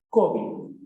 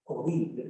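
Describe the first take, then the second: First: Covid whispered as CO-vid; stress on first syllable. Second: Covid said as co-VID, softly, with falling tune; stress on last syllable. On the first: Teacher demonstrates the llana form, whispered CO-vid. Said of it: "convirtiendo la palabra en llana". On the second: Teacher shows students the aguda stress, co-VID. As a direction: lean on VID in covid, keep it quiet. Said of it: "presenta la sílaba fuerte al final". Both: Shown as a demonstration.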